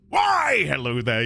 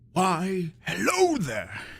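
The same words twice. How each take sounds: First: It is said loudly and suddenly. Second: It is said softly and gently.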